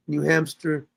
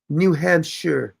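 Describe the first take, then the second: First: New Hampshire slipping into "New Hamster". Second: New Hampshire said slowly and deliberately; corrected pronunciation. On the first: Real, not acted. Host listing places visited, Hampshire mispronounced as hamster. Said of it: "she said I'm saying hamster". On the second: Shown as a demonstration. Host correcting himself for the English teacher, careful pronunciation. Corrects own slip after being questioned.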